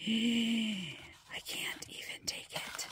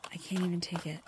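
First: Slow awed whisper after a gasp; gasp, then breathe it out slowly; overwhelmed, hushed delight. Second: Said in the usual way. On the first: Real, not acted. Overwhelmed by the pen.

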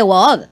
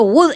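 First: Wood with a long open O, "gwohd"; Wood as written. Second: Wood with a short U, "gud"; first Wood short, with a hard g onset; Wood as mispronounced. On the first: Shown as a demonstration. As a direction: draw Wood out into "woood". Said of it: "en vez de Wood". (Wood con o larga y abierta) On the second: Retold or imitated. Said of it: "que has dicho". (Wood con u corta, como "gud")

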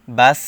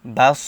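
First: বাস with a thin, hissed final s and light vowel; pronounced with sin. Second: বাস with a heavy, emphatic final s and darker vowel; pronounced with sad. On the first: Teacher contrasts two letters, বাস said with a thin sin. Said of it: "বা সিন জবর". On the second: Teacher contrasts two letters, বাস said with a heavy sad. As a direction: end বাস on a thick, full sad. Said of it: "বা সদ জবর". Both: Shown as a demonstration.

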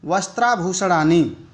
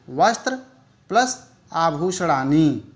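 First: Said in the usual way. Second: "वस्त्र", pause, "plus आभूषणानि" drawn out slowly; split into parts. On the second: Shown as a demonstration. Teacher breaking up a Sanskrit compound, split into parts. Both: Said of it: "इसको हम लोग अलग-अलग करके बताएंगे".

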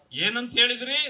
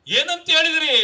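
First: Said in the usual way. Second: Raised, higher rally shout; louder, higher, with a falling end; loud demanding repeat. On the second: Real, not acted. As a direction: throw the question out hard at your opponents. Repeats question forcefully at rally.

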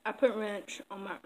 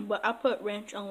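First: Talking with a mouthful of food; mouth full. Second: Said in the usual way. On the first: Real, not acted. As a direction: say it around a bite of food. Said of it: "I'm talking with my mouth full". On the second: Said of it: "sorry y'all, I'm talking with my mouth full".

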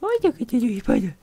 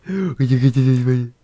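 First: Very high squeak of alarm; high falsetto gasp at the spider; mock fright. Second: Slow, louder gasped alarm; hammed-up slow scared gasp; mock gasp. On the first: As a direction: squeal at the spider like it's a monster. Spotting a spider in game. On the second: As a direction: gasp then draw it out in mock terror. Repeats in alarm.

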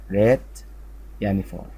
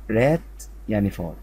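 The two takes are said the same way.

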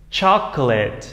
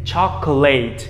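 First: Chocolate ending in short "lit"; reduced "-lit" ending. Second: Chocolate ending in a full "late"; learners' "choco-LATE". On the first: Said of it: "thành âm it". (đọc chocolate, đuôi nhẹ "lít") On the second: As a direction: say chocolate with a long AY in the last syllable. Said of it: "nếu các em đọc như vậy". (đọc chocolate sai, đuôi thành "lây-t") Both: Shown as a demonstration.

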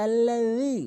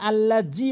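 First: Tongue tip to the teeth for the যী of আল্লাযী; correct dhal. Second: আল্লাহ জি with a hard j; wrong j sound. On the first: Shown as a demonstration. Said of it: "সঠিক উচ্চারণ হচ্ছে". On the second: Retold or imitated. Teacher mimics our mistake, hard Bengali j. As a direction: say "alla-jee" for আল্লাহ জি. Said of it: "এখানে আল্লাহ জি বলি".

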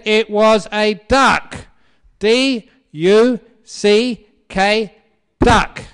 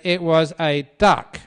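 First: Very loud, high, slow shouting; hammed-up furious husband. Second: Loud, forceful quarrelling husband; mock insistent husband. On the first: Husband spelling it out to his stubborn wife, exasperated shout. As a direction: shout it out letter by letter. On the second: Husband arguing with his wife over the bird, loud insistence. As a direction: raise your voice to overrule her.

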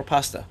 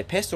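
First: "pasta" with an open ah, as in father; broad-a pronunciation. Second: "pasta" with a flat short a, as in cat; short-a pronunciation. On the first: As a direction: say "pasta" as "pahsta". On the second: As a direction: say "pasta" with the first vowel as in "cat". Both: Shown as a demonstration. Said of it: "How do you say".

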